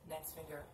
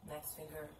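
No difference in how they are said.

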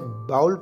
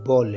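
First: The vowel sounds like the one in 'cow'. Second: The vowel sounds like the one in 'saw'. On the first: The speaker calls it wrong. "इसे बाउल pronounce करना गलत है" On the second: The speaker calls it right. "ये बॉल है"

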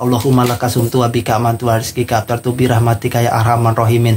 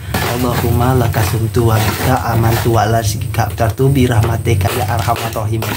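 First: The prayer is recited quickly and hurriedly. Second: The prayer is recited slowly and calmly. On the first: The speaker calls it wrong. "karena [name] udah terburu-buru" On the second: The speaker calls it right. "[name] membacanya pelan-pelan ya"

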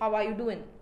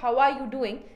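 First: The final 'g' in 'doing' is dropped. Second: The final 'g' in 'doing' is clearly pronounced. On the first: The speaker calls it wrong. "some of them say how are you doing. ... they drop the G sounds" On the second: The speaker calls it right. "instead of how are you doing"

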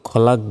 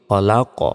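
First: The final consonant stops flat without an echo. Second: The final consonant ends with a bouncing echo. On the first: The speaker calls it wrong. "আমি কিন্তু খলাক বলিনি" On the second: The speaker calls it right. "বলেছি খলাক"

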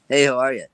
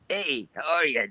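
First: The voice sounds smooth, without gravel. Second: The voice sounds rough, with added gravel. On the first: "if you took that same voice" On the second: "you added a gravel to it"

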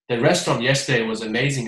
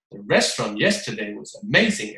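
First: It is read evenly with no expression. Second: Word stresses are hit hard and mechanically. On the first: It is merely read out, not performed. "朗读出来的话呢，很平淡" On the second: It focuses on stress rules and sounds unnatural. "你就会变得非常生硬"

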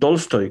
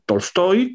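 First: The stress is on the first syllable. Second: The stress is on the last syllable. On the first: This is how many people commonly say it. The speaker calls it wrong. "que es como mucha gente dice" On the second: This is the proper way to say it. The speaker calls it right. "que es como se debe"

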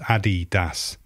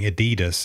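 First: The name is said in a non-American pronunciation. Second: The name is said in an American pronunciation. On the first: The speaker calls it right. "it's Adidas, Adi Dassler" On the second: The speaker calls it wrong. "all those Americans saying Adidas"

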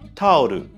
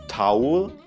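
First: It is said with Japanese syllables, ending in -ru. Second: It is said as the English two-syllable word. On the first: The speaker calls it wrong. "In Katakana geschrieben wird daraus Tauru" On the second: The speaker calls it right. "das englische Wort Towel"

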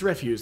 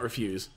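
First: The stress is on the first syllable. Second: The stress is on the second syllable. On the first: It means trash. The speaker calls it right. "I think it's refuse" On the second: It means to decline. The speaker calls it wrong. "not refuse"

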